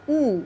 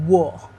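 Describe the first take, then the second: First: The W is a flat, plain oo sound. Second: The W is rounded with a full, resonant sound. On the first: This is how Koreans usually think of it. The speaker calls it wrong. "우리는 그냥 우, 우, W 이렇게 생각하시는데" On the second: This is how English speakers say it. The speaker calls it right. "영어는 워"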